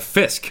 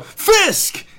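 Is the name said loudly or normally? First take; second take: normally; loudly. First: The name is said at normal volume. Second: The name is said loudly and emphatically.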